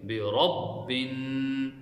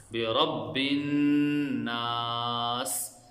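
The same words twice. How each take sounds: First: Slow बिरब्बिन, ra full and heavy. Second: बिरब्बिन नास with a nasal hum on the doubled noon; with ghunna. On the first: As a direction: stretch बिरब्बिन, ra thick. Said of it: "रा को मोटा पढ़ेंगे". (बिरब्बिन धीरे, रा मोटा) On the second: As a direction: hold the noon of नास through the nose. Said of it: "गुन्ना के साथ पढ़ेंगे". (नून पर गुन्ना के साथ) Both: Shown as a demonstration.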